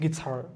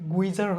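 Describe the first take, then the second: First: No w sound follows the g. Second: A w sound follows the g. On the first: The speaker calls it right. "এটা হচ্ছে গিটার" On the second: The speaker calls it wrong. "গুইজার হচ্ছে না"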